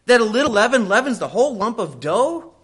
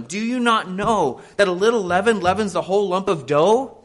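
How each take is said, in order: First: Higher, louder, fervent thunder on the verse; preached verse. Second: Said in the usual way. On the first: Shown as a demonstration. Pastor driving Paul's warning home, higher and louder. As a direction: hurl the verse at the congregation. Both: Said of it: "Don't you know, Paul says".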